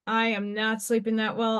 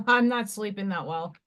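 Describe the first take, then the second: First: "I am" spelt out, "am" leaned on; stress on AM. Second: Said in the usual way. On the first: Shown as a demonstration. Streamer confessing to viewers, stress on "am". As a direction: lean on "am" in "I am not sleeping".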